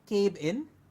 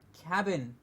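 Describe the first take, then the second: First: The first syllable does not sound like 'cab'. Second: The first syllable sounds like the word 'cab'. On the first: The speaker calls it wrong. "No, it's not cabin" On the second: The speaker calls it right. "It's cabin. ... the same pronunciation that we will take and call it cabin"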